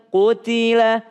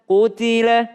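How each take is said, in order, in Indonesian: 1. Vokal pertama jelas dibulatkan dengan bibir maju. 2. Vokal pertama jelas dibulatkan dengan bibir maju.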